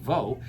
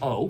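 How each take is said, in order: First: The syllable starts with a V sound. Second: The syllable starts directly with the vowel. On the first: This is the usual present-day pronunciation. "instead of being vo" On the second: This is a later simplified pronunciation. "changed just to o"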